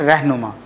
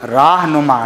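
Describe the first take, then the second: First: The first syllable has a shortened 'e'-like vowel. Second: The first syllable has a long 'aa' vowel. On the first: This is the shortened form used by Urdu speakers. "रे को मजहूल करके पढ़ते हैं" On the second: This is the original full form. "ये देखिए राह नुमा है असल में"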